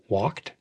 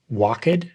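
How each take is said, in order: First: The ending joins the word as one syllable. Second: The ending is said as an extra syllable. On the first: The speaker calls it right. "The ed ending is not a separate syllable" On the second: The speaker calls it wrong. "add extra syllables where they don't belong"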